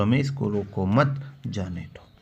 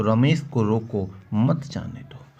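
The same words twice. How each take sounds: First: "रोको मत" run together, short pause, then "जाने दो"; pause after मत. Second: "रोको" closed off, short pause, then "मत जाने दो"; pause after रोको. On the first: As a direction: break after मत, before जाने दो. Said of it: "यहाँ लगा दें comma". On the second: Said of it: "रोको के पहले लगा दें comma". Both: Shown as a demonstration.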